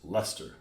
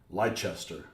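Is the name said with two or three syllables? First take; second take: two; three. First: The name is said with two short syllables. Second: The name is said with three full syllables. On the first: The speaker calls it right. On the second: The speaker calls it wrong. "It's not"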